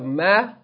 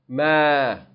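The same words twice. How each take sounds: First: The vowel is held for one count. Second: The vowel is held for two counts. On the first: "from one count" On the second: "to two counts"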